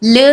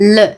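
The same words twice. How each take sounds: First: The word ends in an open ah vowel. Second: The word ends in a slightly rounded uh vowel. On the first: The speaker calls it wrong. "ല എന്നും വായിക്കരുത്" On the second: The speaker calls it right. "ചെറുതായിട്ടൊരു ഊ ഊകാരം വരും"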